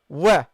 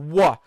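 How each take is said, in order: First: The w sound is light and thin. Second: The w sound is heavy and full. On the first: The speaker calls it right. "the wow is a light letter" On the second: The speaker calls it wrong. "don't say wa"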